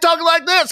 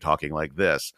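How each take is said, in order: First: The voice is pitched high. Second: The voice is pitched low. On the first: "I just naturally drift up into the upper registers" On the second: "I will start down here"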